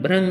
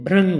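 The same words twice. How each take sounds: First: The syllable is said as 'bhrang'. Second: The same.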